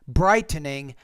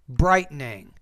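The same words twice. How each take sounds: First: The T is pronounced as a full T. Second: The T is replaced by a glottal stop. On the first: The speaker calls it wrong. "instead of saying" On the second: The speaker calls it right. "we don't really pronounce that T"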